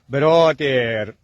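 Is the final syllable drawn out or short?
drawn out. The final syllable is stretched out longer. This is how English speakers supposedly say it. "اونا کلماتشو آخرشو یه خورده میکشم"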